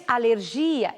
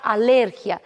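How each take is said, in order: First: Alergia stressed on GI; Portuguese pronunciation. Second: Alérgia stressed on LER; Spanish pronunciation. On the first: Teacher giving the Portuguese word, stress on GI. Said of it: "Em português". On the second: Teacher giving the Spanish word, stress on LER. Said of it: "Em espanhol será". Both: Shown as a demonstration.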